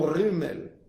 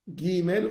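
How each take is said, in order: First: It begins with a soft throaty gh sound. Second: It begins with a hard g sound. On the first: The letter has no dot. "Sans point, c'est re" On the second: The letter carries a dot. "avec un point"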